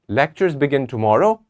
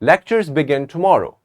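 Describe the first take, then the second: First: It is said as a question. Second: It is said firmly, as a confident statement. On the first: The speaker is asking whether it is true. "It's a question" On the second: The speaker knows it is true. "But when I'm sure, I would say"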